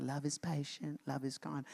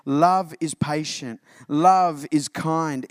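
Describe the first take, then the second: First: Put-on much softer, small child reading at a wedding; lightly imitating a child reciting scripture; a hint of a shy child's recital; little kid reciting. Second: Slow, weighty reading of "Love is patient. Love is kind."; solemn pulpit reading of "Love is kind."; earnest scripture reading. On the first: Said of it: "the little kid comes up and is like". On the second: Shown as a demonstration. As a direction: let each word land slowly. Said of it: "And here it is".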